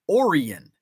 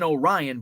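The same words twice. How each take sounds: First: It is said the local Illinois way. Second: It is said the common, widely known way. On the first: It refers to the Illinois town. "but it's pronounced Orion" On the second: It refers to the familiar star pattern's name. "if you're familiar with Orion's belt, we have an Orion"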